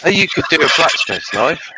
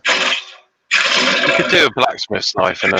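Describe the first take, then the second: First: Said in the usual way. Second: Each word slow and weighted, "knife" falling; "You could do a blacksmith's knife in an hour" said slowly and firmly; slow, insistent repeat. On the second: Shown as a demonstration. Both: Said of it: "repeated slower".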